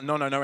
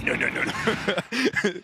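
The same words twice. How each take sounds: First: Said in the usual way. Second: Put-on slow, drawn-out French accent. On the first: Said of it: "I heard that". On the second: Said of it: "in a very French accent".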